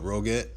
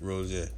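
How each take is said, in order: First: The name is pronounced the English way. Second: The name is pronounced the foreign, non-English way. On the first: The speaker calls it wrong. "in English you would pronounce that as what" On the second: The speaker calls it right. "but it's Roget"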